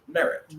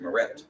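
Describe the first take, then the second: First: Merit punched high on the first syllable; stress on first syllable. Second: Meret stressed on the last syllable; weight the end of meret, rising; stress on second syllable. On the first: Teacher contrasts two readings, merit stressed up front. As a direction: hit the start of merit, drop the end. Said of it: "Are you hearing the difference there". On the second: Teacher shows the reading to avoid, meret stressed on the end. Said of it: "instead of meret". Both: Shown as a demonstration.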